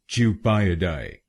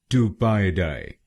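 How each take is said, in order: First: It is said in a British accent. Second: It is said in an American accent.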